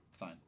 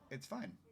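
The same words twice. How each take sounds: First: It is said in a dismissive, offhand way. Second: It is said in a sincere, genuine way. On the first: The speaker is brushing the matter off. The speaker calls it wrong. "That's dismissive" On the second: The speaker truly accepts the matter. The speaker calls it right. "but a genuine"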